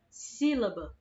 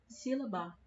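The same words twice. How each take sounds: First: The stress is on the first syllable. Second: The stress is on the third syllable. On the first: The speaker calls it right. "O si é a parte que está puxando mais" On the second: The speaker calls it wrong. "Se a sílaba tônica dessa palavra for a ba"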